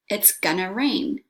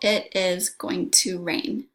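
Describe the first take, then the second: First: The words are contracted and reduced to gonna. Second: Every word is said in full.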